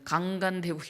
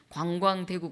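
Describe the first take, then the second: First: The first syllables are said without a 'w' glide. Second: The first syllables are said with a 'w' glide. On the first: The speaker calls it wrong. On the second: The speaker calls it right.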